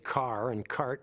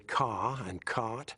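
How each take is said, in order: First: The R is pronounced, North American style. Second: The R is dropped, English style.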